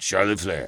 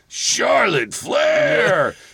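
First: It is said in a weak, aged voice. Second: It is said in a booming announcer voice.

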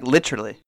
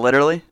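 First: It is said with a British accent. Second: It is said with an American accent.

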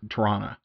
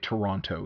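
First: The city name is said the Canadian way. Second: The city name is said in a non-Canadian way. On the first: The speaker is a real local. The speaker calls it right. "You say Toronto" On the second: The speaker is not a local. The speaker calls it wrong. "if you want to be a real Canadian, you don't say Toronto"

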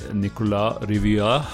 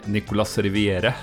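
First: The name is said with a French-style pronunciation. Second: The name is said with a Norwegian-style pronunciation. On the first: "slakte min franske uttale her" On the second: "hvis jeg skal si det på norsk"

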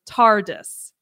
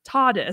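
First: The R after the first vowel is pronounced. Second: The R after the first vowel is silent. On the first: "he pronounces the R in TARDIS" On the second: "what we're used to hearing"

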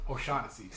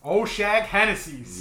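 First: The name is said smoothly as one word. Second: The name is broken into two odd parts.

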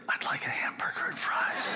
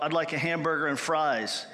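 First: It is spoken in a soft whisper. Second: It is spoken in a normal full voice.

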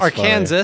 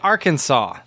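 First: The final S is pronounced, like Kansas. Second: The final S is silent, ending in saw. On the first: The speaker calls it wrong. "which spells" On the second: The speaker calls it right. "But you say Arkansas. You don't say the S"

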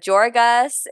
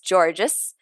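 First: The surname is said the Canadian way. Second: The surname is said the Australian or English way. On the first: This is how Canadians reportedly say it. "Georgas is what the internet said Canadians say" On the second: This is how people in Australia or England say it. "if you're from Australia or England, it's Georgas"

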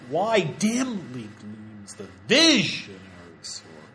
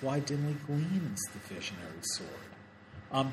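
First: The stress falls on 'visionary'. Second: The stress falls on 'gleams'. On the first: The speaker calls it wrong. "It's not vish" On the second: The speaker calls it right. "Gleams, obviously, is one of them. And sword"

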